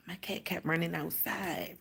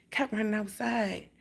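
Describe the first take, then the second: First: Breathy unvoiced whisper, hushed. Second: Said in the usual way. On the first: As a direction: tell it under your breath, no voice. Retelling worried night, whispered.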